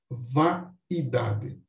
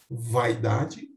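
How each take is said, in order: First: The 'a' and 'i' are split: four syllables. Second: The 'ai' is one gliding syllable: three syllables. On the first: "ou um hiato" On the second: "como um ditongo"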